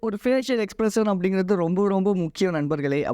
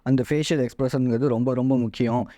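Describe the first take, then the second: First: It is said warmly, while smiling. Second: It is said flatly, without smiling. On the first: The speaker calls it right. "நான் வந்து சிரிச்சுக்கிட்டு" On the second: The speaker calls it wrong. "நான் சிரிச்சுக்கிட்டு பேசாமல்"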